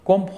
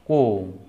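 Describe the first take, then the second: First: The word ends with an audible b sound. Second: The word ends in m with no b sound. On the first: The speaker calls it wrong. "কোম্ব হবে না" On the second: The speaker calls it right. "এখানে হবে কোম কোম কোম"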